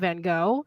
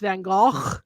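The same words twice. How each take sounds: First: The name is said the American way. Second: The name is said the native way. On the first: "in the United States we call him Van Gogh" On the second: "where he's actually from, it's Van Gogh"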